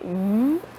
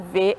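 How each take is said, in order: First: It is said as a buzzing consonant with no vowel. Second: It is said as a full syllable with a vowel. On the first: This is the sound the letter makes. "é o som" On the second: This is what the letter is called. "é o nome da letra"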